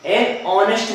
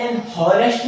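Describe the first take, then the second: First: an ऑनेस्ट with a silent h, starting on the vowel; ऑनेस्ट said as onest, no h; correct pronunciation. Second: एन हॉनेस्ट with the h sounded; हॉनेस्ट said with a clear h, shown as the wrong way; wrong pronunciation. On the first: Teacher shows students the right way: ऑनेस्ट with no h. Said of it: "बोलेंगे इसे". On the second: Teacher shows students the wrong way: हॉनेस्ट with h. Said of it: "नहीं है". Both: Shown as a demonstration.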